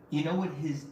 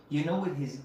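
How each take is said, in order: Both takes have the same delivery.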